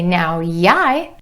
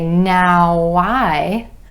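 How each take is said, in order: First: The words are linked with a Y glide. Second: The words are linked with a W glide. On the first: The speaker calls it wrong. "that just feels weird and it sounds funny" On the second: The speaker calls it right. "It makes sense to say"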